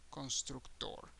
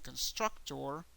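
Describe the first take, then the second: First: "constructor" as cons-trook-TOR, softer; Spanish "constructor", open vowels, last syllable stressed; Spanish pronunciation. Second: "constructor" as kun-STRUC-tor, rising at the end; English "constructor", middle syllable stressed; English pronunciation. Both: Shown as a demonstration. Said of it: "the pronunciation changes to".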